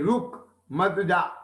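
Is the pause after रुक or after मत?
after रुक. There is a pause after रुक.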